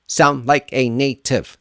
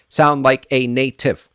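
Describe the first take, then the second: The two takes are said the same way.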